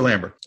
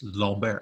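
First: The name is said the English way. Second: The name is said the French way. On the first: "But I'm going to call him Christopher Lambert" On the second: "I asked my neighbor, who's French, ... how do you pronounce this name?"

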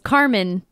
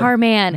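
First: The stress is on the first syllable. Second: The stress is on the second syllable. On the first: It sounds like an ordinary name. The speaker calls it wrong. "it's almost a name, which is Carman. But it's not that" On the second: It is the name as the singer wants it said. The speaker calls it right. "It's [name]. Man. And you have to say it like that"

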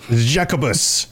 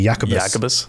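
First: The name begins with a J sound. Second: The name begins with a Y sound.

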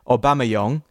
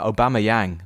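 First: The name is pronounced with French sounds. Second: The name is pronounced with English sounds. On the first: "as the French do" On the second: "just because the English influence"

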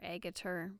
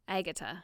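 First: The name is said in a non-English way. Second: The name is said the English way. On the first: "anybody calling her Agutter" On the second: "English people pronounce her name"

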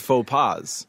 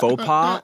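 First: The word ends with an audible s sound. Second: The word ends without an s sound. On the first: It refers to several blunders. "Just add the S on there" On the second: It refers to a single blunder. "You just don't pronounce it when it's singular"

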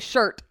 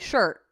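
First: The final T sound is clearly pronounced. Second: The final T sound is dropped. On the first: "I don't say shirt" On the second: "I say shirt"

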